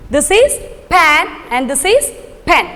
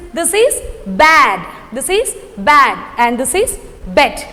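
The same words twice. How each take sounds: First: Pan with open a, pen with short e; contrasting vowels. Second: Bad with open a, bed with short e; contrasting vowels. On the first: To the class, contrasting pan and pen vowels. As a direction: make pan and pen sound clearly different. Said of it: "what is the difference between these two words". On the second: Teacher showing pupils bad versus bed. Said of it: "How to say this?". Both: Shown as a demonstration.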